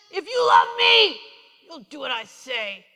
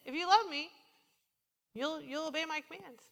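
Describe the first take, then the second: First: Loud shouted threat, slow and demanding; mock harsh command; harsh commanding God. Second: Gentle invitation. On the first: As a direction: bark it like a stern taskmaster. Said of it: "You ever hear Jesus talk like that?". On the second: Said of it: "Really, it's like this". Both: Shown as a demonstration.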